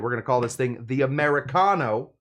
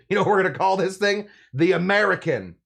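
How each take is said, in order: First: It is said in an Italian accent. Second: It is said without an Italian accent.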